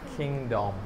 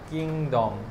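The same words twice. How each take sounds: First: The first consonant is an aspirated kh. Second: The first consonant is a plain, unaspirated k. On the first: The speaker calls it right. "কটো কি হৈ যায় খ" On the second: The speaker calls it wrong. "তুমি যে কোৱা ধৰা কিংডম, কিংডম নাই আচলতে"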